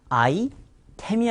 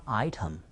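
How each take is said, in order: First: "아이템" said as a-i-tem; wrong Korean-style item. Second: "아이템" said as AI-tum; English-style "아이템", crisp T and reduced vowel; correct English item. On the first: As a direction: say "아이템" with a full "tem" syllable. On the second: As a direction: say "아이템" stressed first with a weak ending. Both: Shown as a demonstration. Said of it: "아이템이 아니라 아이템".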